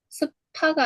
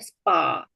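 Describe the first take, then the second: First: The p is aspirated with a puff of air. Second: The p is unaspirated and tense. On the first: The speaker calls it wrong. "아니라" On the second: The speaker calls it right. "이렇게 발음되는구나"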